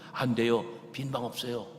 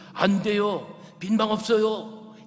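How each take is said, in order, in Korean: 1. 낮고 조용한 목소리로 말합니다. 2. 더 큰 목소리로 말합니다. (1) "나지막한 목소리로" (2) "더욱 큰 목소리로"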